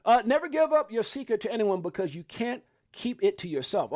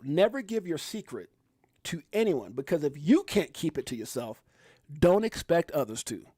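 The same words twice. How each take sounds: First: Said in the usual way. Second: Slow, deliberate reading with pauses; careful slow read-out; read slowly. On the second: Shown as a demonstration. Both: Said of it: "I gotta read it slow".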